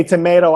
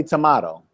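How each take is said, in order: First: Tomato said as to-MAY-to, with the long A of say; the common American tomato, may in the middle. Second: Tomato said as to-MAH-to, with a broad AH in the middle; the British-style tomato, mah in the middle; other tomato. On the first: Teacher contrasting the two tomato pronunciations, long A. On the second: Teacher contrasting the two tomato pronunciations, broad AH. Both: Shown as a demonstration. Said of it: "you say tomato, I say tomato".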